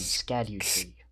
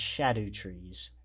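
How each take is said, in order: First: The word begins with an 'sk' sound. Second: The word begins with an 'sh' sound. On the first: "We pronounce them" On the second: "technically pronounced"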